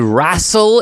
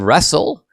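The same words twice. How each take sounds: First: The first vowel sounds like 'ah'. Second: The first vowel sounds like 'eh'. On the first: "they say wrestle" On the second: "instead of wrestle"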